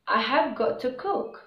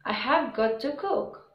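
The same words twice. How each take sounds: Both takes have the same delivery.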